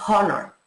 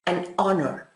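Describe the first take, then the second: First: "honor" with an audible, breathed H at the start; sounded H. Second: "honor" begun on the vowel, linked to "an"; silent H. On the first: Teacher showing students what we don't say, "honor" with sounded H. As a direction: pronounce the H in "honor", as a mistake. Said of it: "No decimos honor". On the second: Teacher giving students the correct English form, "honor" with silent H. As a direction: drop the H in "honor" so it starts with O. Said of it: "la H es realmente muda en inglés". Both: Shown as a demonstration.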